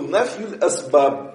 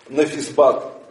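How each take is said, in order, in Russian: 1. Произносится как полная фраза из двух слов. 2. Он сокращается до одного короткого слитного слова. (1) "по идее, это арабское слово" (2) "По своему джахлю, невежеству не говорят отрицание причин, они говорят нафисбат"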